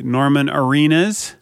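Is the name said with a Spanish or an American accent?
American. It is said with an American accent.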